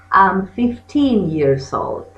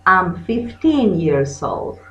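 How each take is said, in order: Both takes have the same delivery.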